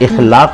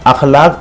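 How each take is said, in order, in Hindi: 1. यह शब्द 'i' स्वर से शुरू होता है। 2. यह शब्द 'a' स्वर से शुरू होता है। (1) "अलिफ के ज़ेर के साथ इखलाक बड़ा अच्छा है, जबकि ये लफ्ज़ ही गलत है।" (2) "अखलाक अलिफ के ज़बर के साथ"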